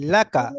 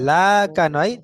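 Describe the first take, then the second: First: The first vowel is short and quick. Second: The first vowel is drawn out long. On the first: The speaker calls it right. "তাড়াতাড়ি পড়বেন" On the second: The speaker calls it wrong. "লাটা টান দেয়"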